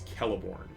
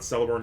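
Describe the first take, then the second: First: The name begins with a K sound. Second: The name begins with an S sound. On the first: The speaker calls it right. "He's always Celeborn. C is always pronounced as K" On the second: The speaker calls it wrong. "is not"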